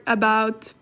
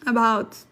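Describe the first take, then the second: No difference in how they are said.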